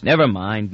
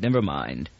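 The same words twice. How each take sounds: First: Said in the usual way. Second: Much lower and softer, trailing off; muttered under the breath, fading; fading repeat. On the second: A narrator's reading. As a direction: let the second never mind die away. Repeats never mind, trailing off.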